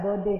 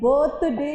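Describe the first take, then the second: First: The middle consonant sounds like d. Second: The middle consonant sounds like th. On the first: The speaker calls it right. "बीच में टी एच आता है तो डी हो जाता है" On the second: The speaker calls it wrong. "बर्थडे नहीं होता है"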